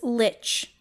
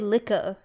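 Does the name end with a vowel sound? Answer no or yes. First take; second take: No; Yes. First: The name ends without a final vowel sound. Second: The name ends with a final vowel sound. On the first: This is the anglicized form of the name. "The English pronunciation" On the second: This is a guess at the original form of the name. "It's probably Licka, I'm guessing"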